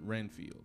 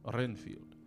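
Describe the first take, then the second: First: The R is said as a plain R. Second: The R is rolled.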